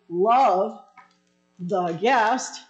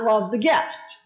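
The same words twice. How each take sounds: First: There is a short pause after 'love'. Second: There is no pause after 'love'. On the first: The speaker calls it right. "there is a comma, so it is love the guest" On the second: The speaker calls it wrong. "not love the guest"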